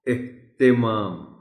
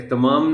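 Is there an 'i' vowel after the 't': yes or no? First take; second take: yes; no. First: An 'i' vowel is heard after the 't'. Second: No vowel is heard after the 't'. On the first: The speaker calls it right. "ते के नीचे ज़ेर है" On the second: The speaker calls it wrong. "एहतमाम नहीं"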